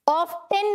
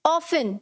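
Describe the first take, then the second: First: Often drawn out as OFF-tenn, T sounded; often said wrongly with a clear T, off-TEN; often with T pronounced. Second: Often said as OFF-un, no T sound; often pronounced without its T; often with silent T. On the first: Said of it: "नहीं बोलना". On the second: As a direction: say often like "awfun", the T left silent. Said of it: "इसे कैसे बोलना है". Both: Shown as a demonstration.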